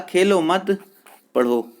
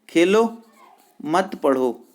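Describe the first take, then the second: First: The pause comes after mat. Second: The pause comes after khelo.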